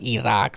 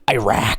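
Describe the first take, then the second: First: It is pronounced in a local, regional way. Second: It is pronounced in a typical American way. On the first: It copies how people from the region say it. "whatever language they are that makes it sound like Iraq" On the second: It follows how Americans usually say it. "pronounce it like an American and say Iraq"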